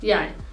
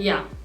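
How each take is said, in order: First: It is said fully, ending with a glide. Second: It is said quickly, ending on a short vowel. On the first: It sounds isolated and careful. The speaker calls it wrong. "ये बहुत ही isolated sound करता है" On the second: It is how people say it in fast everyday speech. The speaker calls it right. "जल्दी जल्दी बोला जाता है"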